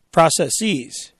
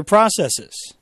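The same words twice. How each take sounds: First: "processes" ending in a long EEZ; "processes" with a drawn-out -eez ending; affected pronunciation. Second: Said in the usual way. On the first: Shown as a demonstration. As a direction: say "processes" as PRAH-sess-eez. Same word repeated with altered ending.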